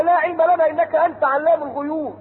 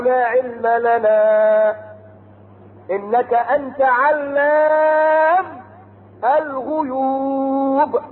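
First: Said in the usual way. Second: Very slow, stretched melodic chant; Quran recitation. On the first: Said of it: "الرسل بيقولوا لله". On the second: Acted. Preacher chanting the messengers' answer to God. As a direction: hold each vowel long like a reciter.

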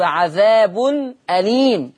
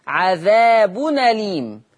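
First: عذاب أليم as "adhaabun, aleem", two separate words; hamza kept, separated. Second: عذاب أليم run together as "adhaabu-naleem"; naql, hamza dropped. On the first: Teacher names the phrase before changing it, separated "adhaabun. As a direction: break before أليم and sound its glottal stop. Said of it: "وقرأ ورش بالنقل في لفظ". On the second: Teacher shows Warsh's naql, joined "adhaabunaleem" for عذاب أليم. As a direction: carry the nun straight into أليم without a glottal stop. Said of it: "يقرأ ورش". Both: Shown as a demonstration.

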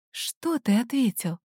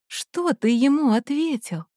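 First: Softly asked, cautious question; quiet question. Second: Higher-pitched, more pressing question; insistent repeated question. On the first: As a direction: ask it under your breath. Heroine questions Ryan, then repeats. (тихий осторожный вопрос) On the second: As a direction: press for the answer, pitch raised. (настойчивый вопрос повышенным голосом) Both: A narrator's reading.

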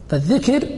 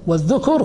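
First: فالذكر as "fadh-dhikr", short i; kasra on the dhal. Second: والذكر as "wadh-dhukr", short u; damma on the dhal. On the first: Teacher defining speech of the tongue, فالذكر as "dhikr". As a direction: say فالذكر with i after the ذ. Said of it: "وذاله مكسورة". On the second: Teacher defining human remembering, والذكر as "dhukr". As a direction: say والذكر with u after the ذ. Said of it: "لأن الذكر بالضم". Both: Shown as a demonstration.

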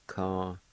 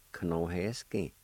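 First: "Ka-no-he-skin" with a long pause after each syllable. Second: "Kanoheskin" run together as one word; joined-up word. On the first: Teacher modelling the word for fable, "Ka-no-he-skin" syllable by syllable. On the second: Teacher giving the whole word for fable, "Kanoheskin" joined up. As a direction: say "Kanoheskin" straight through without pauses. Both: Shown as a demonstration. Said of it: "it's pronounced like this".

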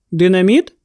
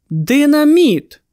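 First: «Динаміт» as a question, rising at the end. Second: Higher, drawn-out cry of realisation; exclaimed. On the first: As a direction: ask «Динаміт» from low, lifting the last syllable. Question before the exclaimed echo. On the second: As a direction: exclaim it slowly, pitch up, then falling. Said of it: "вигукнув Кернс". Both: A narrator's reading.

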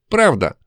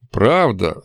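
First: Higher, heated exclamation; hot-tempered. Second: Doubting question at usual pitch; distrustful. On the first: Demon insisting to the doubting hero, hot-tempered. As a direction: fire it back hotly. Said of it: "запальчиво воскликнула Настя". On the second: Hero doubting the demon's claim, distrustful. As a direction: ask as if you don't believe it. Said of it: "сказал я недоверчиво". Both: A narrator's reading.

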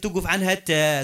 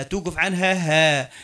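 First: Final "تاء" said as a clear T; stop on a T sound. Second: Slow, drawn-out "هاء" with an H; stop on an H sound. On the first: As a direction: end on "تاء", stopping on the T pronunciation. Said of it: "توقف التاء هذيك توقف عنها تاء". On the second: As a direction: end on "هاء", stopping on H instead of T. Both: Shown as a demonstration.

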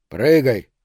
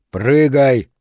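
First: Barked order to jump; loud command, falling at the end; commanding shout. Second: Much louder barked order; commanding shout. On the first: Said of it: "приказал Кёниг". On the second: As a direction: roar the command, louder this time. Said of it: "снова приказал он". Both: A narrator's reading.

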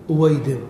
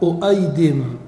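First: أويدم with a plain w sound, no hamza; correct form. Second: أؤيدم with a hamza on the second syllable; wrong form. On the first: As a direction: say أويدم smoothly with a w. (نطق أويدم بواو دون همزة) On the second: (نطق أؤيدم بالهمزة كصيغة خاطئة) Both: Shown as a demonstration. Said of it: "ولا يصح أؤيدم".

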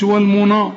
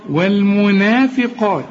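First: والمنا with a dark, backed نا; wrongly heavy na. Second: والمنافقات slow, thin نا then full dark قا; light na, heavy qaf. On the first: Retold or imitated. Teacher showing what to avoid, heavy نا in والمنا. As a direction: thicken the last vowel of والمنا. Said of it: "ما تقولش". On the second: Shown as a demonstration. Teacher correcting a student, light نا and heavy قا in والمنافقات. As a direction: keep نا light and thicken only ق in والمنافقات. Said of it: "أعلى درجات التفخيم".

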